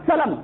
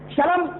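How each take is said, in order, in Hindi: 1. यह शब्द s ध्वनि से शुरू होता है। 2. यह शब्द sh ध्वनि से शुरू होता है। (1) "हम क्या कहते हैं? सीन कहते हैं।" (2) "सीन को लोग शीन कहते हैं"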